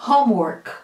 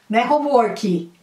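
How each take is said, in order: First: "Homework" ending dry on K; clean final K. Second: "homework" said as "homorki" with added I; wrong extra final I. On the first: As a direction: cut "Homework" at the K. ("Homework" terminando seco no K) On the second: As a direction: add a vowel after the K: "homorki". ("homework" com I no final, errado) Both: Shown as a demonstration.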